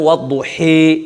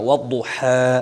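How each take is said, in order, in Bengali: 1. চূড়ান্ত স্বরবর্ণটি 'ee'-এর দিকে জোরালোভাবে বাঁকানো। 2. চূড়ান্ত স্বরবর্ণটি একটি সরল, খোলা 'a'। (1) "তিন নাম্বারটা হলো এমালা, এমালায় কোবরা বড় এমালা" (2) "ফাতা সোজা পড়া"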